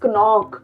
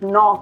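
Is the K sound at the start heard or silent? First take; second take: heard; silent. First: The word begins with a sounded K. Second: The word begins with a silent K. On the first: The speaker calls it wrong. "we don't read it as knock" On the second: The speaker calls it right. "we'll pronounce it as knock"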